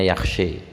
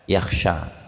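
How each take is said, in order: First: The final vowel is tilted toward an e sound. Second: The final vowel is a plain open a.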